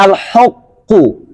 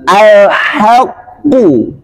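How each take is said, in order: First: "al-haqqu" with heavy dark h; wrong thick al-haqqu. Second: Very slow "al-haqqu" with light h; thin al-haqqu. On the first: Teacher demonstrates the forbidden reading. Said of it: "Jangan al-haqqu". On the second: Teacher models the correct reading. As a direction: stretch "al-haqqu" thin and clear. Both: Shown as a demonstration.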